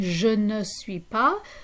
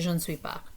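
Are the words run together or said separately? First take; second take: separately; run together. First: Each word is said separately and fully. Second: The words are squished together like one word. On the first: "instead of saying" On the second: "squish those together and they just say"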